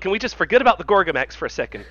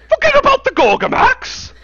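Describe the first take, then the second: First: Said in the usual way. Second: Very high, loud outburst; outraged cartoon cry. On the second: Quoting a South Park episode, outraged shriek. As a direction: screech it back in disbelief. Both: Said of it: "That's from a South Park episode".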